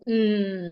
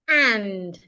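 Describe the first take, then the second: First: The vowel disappears, leaving only a consonant. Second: It has a full, open vowel sound. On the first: The word is unstressed. "or you can go mm" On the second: The word is being emphasized. "strong forms that are used when you are emphasizing"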